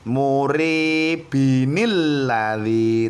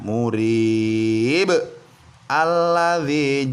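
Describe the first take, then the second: First: Murib runs into alladzi with an added 'inil'. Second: There is a stop after murib before alladzi. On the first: The reader continues without stopping. "Sekali lagi" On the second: The reader stops at the end of the verse. "Itu jika kita berhenti atau wakof ya"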